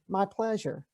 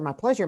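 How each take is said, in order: First: It is said warmly and sincerely. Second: It is said mechanically, by rote.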